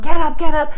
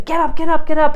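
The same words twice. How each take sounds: First: Loud, high, impatient get up; mock parent yelling, much louder. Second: Loud, high, exasperated get up; mock frazzled parent yelling, louder and higher. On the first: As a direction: yell it like the parent you shouldn't be. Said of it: "Yelling at them". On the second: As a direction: bark at the kid like a frazzled parent. Stressed parent yelling at child.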